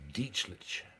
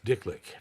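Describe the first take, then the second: First: The name is said with a soft middle sound. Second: The name is said with hard k sounds. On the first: "his name was Dietzlich" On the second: "But he pr- didn't pronounce it like that"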